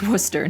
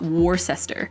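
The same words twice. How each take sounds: First: The name is said in a short, clipped form. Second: The name is said in a long, spelled-out form. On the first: The speaker calls it right. "It's almost always something shorter" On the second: The speaker calls it wrong.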